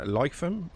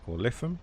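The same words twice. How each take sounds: First: "Lytham" with a long i, as in life; first pronunciation guess. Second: "Lytham" with a short i, as in lift; alternative pronunciation. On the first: Streamer guessing a station name for Jason, first pronunciation. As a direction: say "Lytham" as LIE-thum. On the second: Streamer offering another way to say a station name, alternative pronunciation. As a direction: say "Lytham" as LIH-thum, short first vowel. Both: Shown as a demonstration. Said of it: "correct me on the pronunciation".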